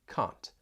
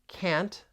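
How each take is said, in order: First: It is said with a British vowel. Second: It is said with an American vowel.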